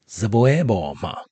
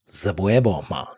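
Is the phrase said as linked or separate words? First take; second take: linked; linked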